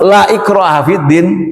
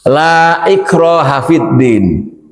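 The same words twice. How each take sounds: First: The vowel in the first word is kept short. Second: The vowel in the first word is drawn out long. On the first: The word means truly. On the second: The word means no or not. "La-nya panjang"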